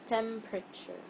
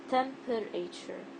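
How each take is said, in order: First: The middle vowel is silent, dropping a syllable. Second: The middle vowel is pronounced as a full syllable. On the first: The speaker calls it right. "It's temperature" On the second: The speaker calls it wrong. "I don't say temperature"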